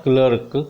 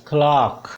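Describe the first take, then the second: First: CLERK said as "klurk"; wrong er vowel. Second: CLERK said as "klaak"; long "ah" in CLERK, silent r; British clerk vowel. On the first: Teacher warning learners off a mistake, CLERK as "klurk". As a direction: say CLERK with "ur" and a sounded r. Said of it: "This is not clerk". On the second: Teacher modelling the word for learners, CLERK as "klaak". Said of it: "the word is clerk". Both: Shown as a demonstration.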